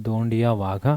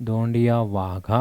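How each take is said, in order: No difference in how they are said.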